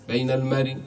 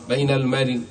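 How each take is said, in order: No difference in how they are said.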